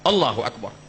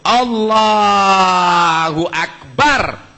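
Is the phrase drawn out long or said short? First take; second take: short; long. First: The phrase is said short and quick. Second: The phrase is drawn out long.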